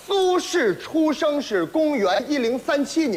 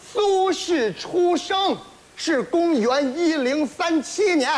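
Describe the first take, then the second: First: Slurred, unclear words; mumbled. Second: Slow, careful enunciation; slow and clear. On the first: Acted. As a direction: mumble it like a mouthful of socks. Garbled mumbled recitation. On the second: Shown as a demonstration. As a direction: say each word slowly and clearly. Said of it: "没听明白吗".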